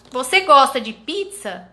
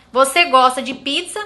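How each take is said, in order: First: Falling statement tune on "Você gosta de pizza", pitch dropping at the end; statement intonation. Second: Rising question tune on "Você gosta de pizza?", pitch going up at the end; question intonation. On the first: (entonação de afirmação, caindo no final) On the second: (entonação de pergunta, subindo no final) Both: Shown as a demonstration. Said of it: "a entonação".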